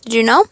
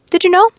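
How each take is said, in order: First: Said in the usual way. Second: Higher, rising "Did you know?"; playful repeat question. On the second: Real, not acted.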